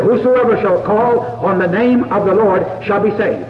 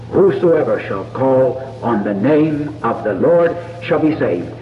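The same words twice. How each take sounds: First: Ringing scripture quote, each word firm; quoting scripture. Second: Slower, lower, hushed recitation of the verse; quoting scripture softly. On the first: Preacher to congregation quoting Romans, firm proclamation. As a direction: proclaim the verse to the whole room. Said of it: "He said". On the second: Preacher to listeners at prayer, slow hushed verse. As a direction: let the promise settle gently. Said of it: "Because he promised it". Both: Retold or imitated.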